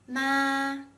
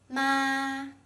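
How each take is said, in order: First: The pitch stays high and level. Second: The pitch stays high and level.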